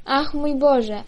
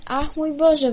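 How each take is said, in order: First: Mild astonished exclaim; a small gasp of wonder at the girl; first cry of wonder, slightly raised. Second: Echoing cry of wonder, pitched higher; second cry, higher than the first; exclaiming higher. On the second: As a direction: repeat it higher in amazement. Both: A narrator's reading. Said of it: "wołali".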